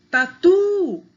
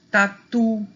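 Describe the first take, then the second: First: TATU with a loud, high, held TU; calling the word. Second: Said in the usual way. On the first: Shown as a demonstration. Teacher demonstrating final stress, calling taTUU. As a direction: call out tatu, lifting and stretching TU. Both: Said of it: "o tu é a sílaba mais forte".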